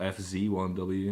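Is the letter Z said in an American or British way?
American. Z is said the American way, as zee.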